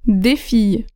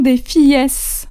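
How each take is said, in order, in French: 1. Aucun son s final n'est prononcé après fille. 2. Un son s final est prononcé après fille. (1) "le pluriel ne se prononce pas en français" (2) "je ne veux pas entendre des fillesses"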